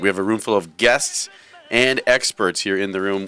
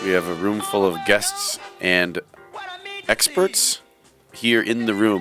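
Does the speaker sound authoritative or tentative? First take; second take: authoritative; tentative. First: It sounds confident and authoritative. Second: It sounds tentative, lacking authority. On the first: The speaker calls it right. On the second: The speaker calls it wrong.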